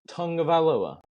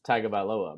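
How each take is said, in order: First: The first part has an 'ng' sound. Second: The first part has a plain 'g' sound. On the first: The speaker calls it right. "my wife has corrected me and said it's Tungavailoa" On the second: The speaker calls it wrong. "there's no U, there's no N, there's no G"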